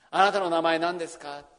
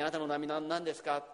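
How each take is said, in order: First: "あなたの名前何ですか？" called out louder, stress on あ, falling end; earnest loud question. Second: Said in the usual way. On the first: Acted. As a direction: ask it boldly, raising the voice. Moses asks God's name.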